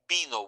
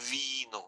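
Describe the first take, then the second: First: The first sound is made with both lips. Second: The first sound uses upper teeth and lower lip. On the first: It means came. "vino with the B" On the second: It means wine. "with the V is vino of the wine"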